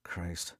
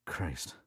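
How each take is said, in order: First: Mumbled curse. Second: Mumbled. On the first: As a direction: mutter it under his breath. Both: A narrator's reading. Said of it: "Tony mumbled".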